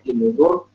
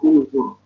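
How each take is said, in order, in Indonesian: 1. Kata itu diawali dengan vokal i. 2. Kata itu diawali dengan vokal u. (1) "Bacanya inuzur" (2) "maka hamzah wasl dibaca dhammah. Jadinya bacanya unzur"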